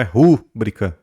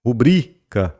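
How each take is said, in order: First: Rúbrica stressed on the first syllable, RÚ-bri-ca; rúbrica as the mistake, RÚ-bri-ca; wrong stress. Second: Rubrica stressed on the middle syllable, ru-BRI-ca; correct stress. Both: Shown as a demonstration. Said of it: "Não é rúbrica, mas rubrica".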